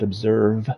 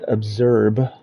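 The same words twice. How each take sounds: First: The V sound is clearly enunciated. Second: The V sound is not clearly pronounced. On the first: The speaker calls it right. "Observe with a V. I need to enunciate" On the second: The speaker calls it wrong. "not observe"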